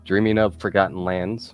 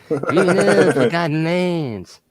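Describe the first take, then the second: First: It is said in the speaker's normal voice. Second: It is said in a put-on imitation voice.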